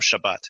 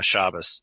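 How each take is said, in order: First: The stress is on the last syllable, ending in T. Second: The stress is on the first syllable, ending in S. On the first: This is the Hebrew form. "the Sabbath is the Shabbat" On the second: This is the Yiddish form. "it shifts the syllable emphasis to the first syllable"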